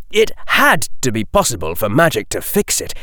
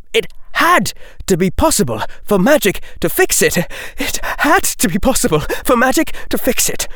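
First: Said in the usual way. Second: Higher and faster each time; frantic inner chant, climbing; desperate rising repeat. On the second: Acted. Repeated line, mounting desperation.

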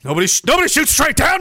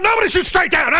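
First: Said in the usual way. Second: Much higher, pushing Nobody; incredulous emphasis. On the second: Real, not acted. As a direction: insist in disbelief. Repeats line for emphasis.

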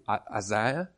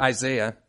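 First: Low, tentative South African-style "Isaiah"; questioning attempt at a South African accent; imitated local accent. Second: Said in the usual way. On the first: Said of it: "you say it so wonderfully". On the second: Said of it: "American accents are terrible".

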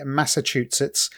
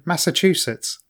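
First: Massachusetts tripped over as "Massa-tutsets"; Massachusetts with a muddled "chu-setts"; stumbled pronunciation. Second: Massachusetts said carefully as "Massa-chu-sets"; Massachusetts retried with each syllable in place; corrected pronunciation. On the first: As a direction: fumble the middle of Massachusetts, the "ch" slipping to "t". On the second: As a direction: sound a clean "ch" in Massachusetts. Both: Real, not acted. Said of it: "I can't read it for some reason".

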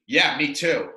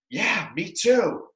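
First: Noncommittal, casual reply in an everyday voice; vague agreement. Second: Slow, higher, stretched noncommittal reply; exaggerated vague agreement. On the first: Retold or imitated. He answers her I love you, vaguely noncommittal. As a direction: toss it off without committing. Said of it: "a very vague". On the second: He dodges her I love you, exaggeratedly vague. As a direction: draw it out, agreeing without meaning it. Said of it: "a nice vagary out there".

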